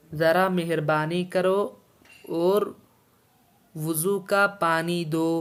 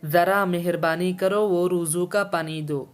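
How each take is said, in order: First: Slow, word-by-word Urdu reading, clear pauses between phrases; slow dictation. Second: Said in the usual way. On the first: Shown as a demonstration. Teacher dictating the Urdu sentence to students, slow and deliberate. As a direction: read it out slowly so students can follow. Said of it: "teacher repeats line slowly to dictate". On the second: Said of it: "teacher reads Urdu line first".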